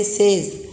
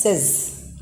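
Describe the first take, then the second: First: SAYS with the long vowel of "say"; wrong says. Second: SAYS with a short e, "sez"; correct says. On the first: Teacher shows pupils what not to say, says as "saze". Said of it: "You don't say says". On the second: Teacher gives pupils the correct says, short "sez". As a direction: say "says" to rhyme with "fez". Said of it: "you have to pronounce it as". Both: Shown as a demonstration.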